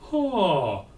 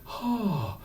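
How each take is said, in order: First: The vowel starts cleanly, neither breathy nor hard. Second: The vowel starts with audible breath. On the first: The speaker calls it right. "the compromise" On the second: The speaker calls it wrong. "we don't want a breathy"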